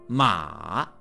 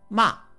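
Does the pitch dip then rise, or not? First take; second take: dip; no dip. First: The pitch falls first and then rises. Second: The pitch does not dip then rise.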